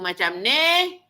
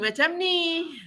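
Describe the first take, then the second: First: The voice sounds rough and low in the throat. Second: The voice resonates through the nose and flows easily. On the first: The speaker calls it wrong. "suara banyak kat tekak" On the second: The speaker calls it right. "Saya ubah laluan udara supaya dia keluar melalui rongga hidung"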